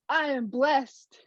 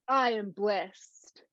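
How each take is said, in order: First: It is said with more feeling and energy. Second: It is said plainly, with less feeling.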